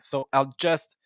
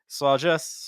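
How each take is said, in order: First: The words are said separately, one by one. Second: The words run together like one word. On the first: The speaker calls it wrong. "instead of saying so I'll just" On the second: The speaker calls it right. "everything just kind of becomes one word"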